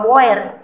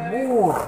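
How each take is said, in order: First: The vowel is read as separate o and e. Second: The vowel is a long u sound. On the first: The speaker calls it wrong. "Jadi bukan boer" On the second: The speaker calls it right. "tapi bur"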